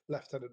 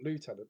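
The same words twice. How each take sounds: First: The first syllable sounds like "left". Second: The first syllable sounds like "loo". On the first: This is the British Army's form. "the British Army do use lieutenant" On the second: This is the American form. "not lieutenant"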